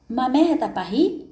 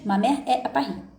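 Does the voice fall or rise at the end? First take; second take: rise; fall. First: The pitch rises at the end like a question. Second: The pitch falls at the end like a statement. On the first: It asks a question. "virou uma pergunta" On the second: It states a fact. "é uma afirmação"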